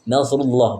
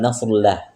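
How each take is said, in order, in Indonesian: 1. Kata Allah dibaca tebal dan penuh. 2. Kata Allah dibaca tipis dan ringan. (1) "Nasrullah tebalkan lafaz Allah" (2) "bukan nasrullah"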